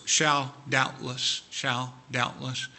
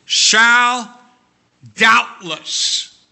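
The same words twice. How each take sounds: First: Soft, slow repetition. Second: High, loud proclaiming of the words; booming pulpit proclamation; ringing proclamation. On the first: Repeats key words softly. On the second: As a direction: ring out each word like a promise. Preacher proclaims key words. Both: Acted.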